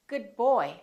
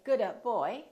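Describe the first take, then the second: First: The d is held without release. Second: The d is released before the b. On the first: The speaker calls it right. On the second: The speaker calls it wrong. "Don't say"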